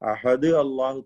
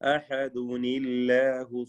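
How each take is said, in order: First: Ahad ends on d, then Allahu starts with a. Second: Ahad runs into Allahu with a linking -uni- sound. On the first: The speaker calls it wrong. "തെറ്റാണ്" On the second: The speaker calls it right. "ചേർത്തോതുകയാണെങ്കിൽ അഹദുനില്ലാഹു സ്വമദ് എന്നോദണം"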